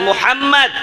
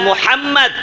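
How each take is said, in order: The two takes are said the same way.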